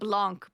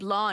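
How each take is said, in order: First: The word ends with a k sound. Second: The word ends without a k sound. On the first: "I always call it Blanc" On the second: "you don't pronounce the C"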